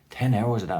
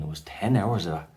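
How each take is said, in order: First: "Ten hours of that" said higher and louder with a falling finish; emphatic repeat. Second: Said in the usual way. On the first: Real, not acted. Telling viewers about the long ordeal, "Ten" stressed higher and louder. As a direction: hammer home "Ten" on the repeat.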